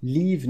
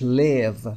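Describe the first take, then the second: First: Live said with the long "ai" vowel, like "laiv"; wrong pronunciation. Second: Short i in live, like "liv"; correct pronunciation. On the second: (live با i کوتاه) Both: Shown as a demonstration. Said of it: "Live نیست".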